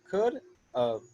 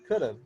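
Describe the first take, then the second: First: The two words are said slowly and separately. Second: The two words are said fast and blended. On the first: "We just say of" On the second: "you just say it fast so it blends in"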